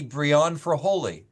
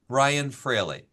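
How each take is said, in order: First: The surname is said as Fraholi. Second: The surname is said as Fraley. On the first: It is a guess from the spelling. The speaker calls it wrong. "that must be Brian Fraholi" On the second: It is how the owner says the name. The speaker calls it right. "I pronounce it, believe it or not, Brian Fraley"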